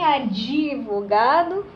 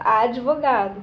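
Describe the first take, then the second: First: An extra vowel is heard after the d. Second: The d runs straight into the v. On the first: The speaker calls it wrong. "Nem advogado" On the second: The speaker calls it right. "é com D mudo"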